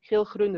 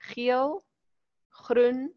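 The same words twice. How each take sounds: First: The words run together without pauses. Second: There is a pause after each word. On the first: The list is hard to read correctly. The speaker calls it wrong. "As ek dit alles langs mekaar gaan skryf, gaan ons dit nie reg lees nie" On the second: The list can be read correctly. The speaker calls it right. "So daar is 'n pauze na elke woord"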